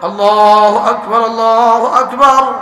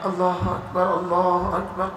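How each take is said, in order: First: It is said more loudly and strongly. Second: It is said quietly and softly. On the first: "একটু জোর" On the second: "আস্তে"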